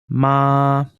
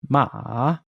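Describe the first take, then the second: First: The syllable is said with the first tone. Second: The syllable is said with the third tone.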